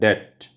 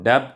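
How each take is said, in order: First: No sound is heard before the t. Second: A b or p sound is heard before the t. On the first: The speaker calls it right. "डेट में बी silent होता है" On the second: The speaker calls it wrong. "इसको डेप्ट मत बोलना"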